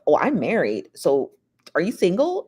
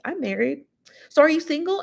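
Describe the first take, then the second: First: Said in the usual way. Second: High, sing-song gloating imitation; mock smug taunt. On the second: Imitating [name] flaunting her marriage at [name], high and smug. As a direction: rub it in his face, pitched up. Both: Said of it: "rub her marriage in his face".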